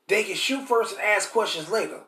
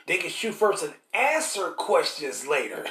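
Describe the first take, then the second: First: Said in the usual way. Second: A slow line that hangs on the word answer; stress on answer. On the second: Shown as a demonstration. Preacher correcting himself, slow and leaning on answer. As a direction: answer slowed and leaned on as the correction. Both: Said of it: "And then not ask questions later".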